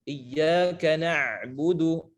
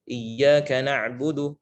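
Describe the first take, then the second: First: The ain sound is pressed hard and exaggerated. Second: The ain sound is said lightly without extra pressure. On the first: The speaker calls it wrong. "ditekan seperti itu sehingga uh, terlihat berlebihan" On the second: The speaker calls it right. "itu sudah cukup"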